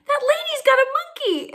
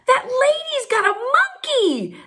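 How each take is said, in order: First: High, thrilled repeat of the news; excited repeat. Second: High, slow, breathless with delight; can't believe the monkey, tell everyone; thrilled announcement. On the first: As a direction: say it again, still amazed. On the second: Mom thrilled, sees a monkey. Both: Retold or imitated.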